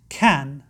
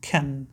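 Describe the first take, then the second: First: The vowel is full and the word is stressed. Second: The vowel is reduced and the word is unstressed. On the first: The speaker calls it right. "كان هنا نطقها قوي، كان" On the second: The speaker calls it wrong. "وليس كان"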